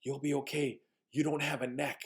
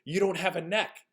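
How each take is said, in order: First: Softly imitated matter-of-fact child; little boy reassuring. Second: Imitated child, higher and more emphatic; little boy repeating himself. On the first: Little boy calming the scared visitor, soft reassurance. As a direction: reassure in a small, quiet boy's voice. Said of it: "he looks at me like this". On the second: Little boy repeating for the puzzled visitor, emphatic. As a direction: say it up high, making it clear. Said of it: "Pardon me?".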